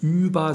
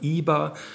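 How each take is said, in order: First: The first vowel is rounded, like standard German. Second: The first vowel is unrounded, sounding like i. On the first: "statt über" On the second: "sagt man iber"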